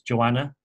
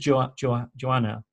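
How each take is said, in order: First: The H sound is dropped from the name. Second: The H sound is pronounced in the name. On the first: This is how it is said in Yorkshire. The speaker calls it right. "in England you don't really pronounce the H. In Yorkshire it's" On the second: This is how the actress said it. The speaker calls it wrong. "there's a word that she says"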